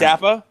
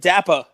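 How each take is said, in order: First: The final R is pronounced strongly. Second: The final R is dropped, ending in ah. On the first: The speaker calls it right. "you really hit the R sound hard" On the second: The speaker calls it wrong. "like D A P P A"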